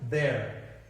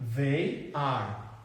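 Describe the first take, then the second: First: It is said as one contracted syllable. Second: It is said as two full words. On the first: "Já aqui seria there" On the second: "Aqui seria they are"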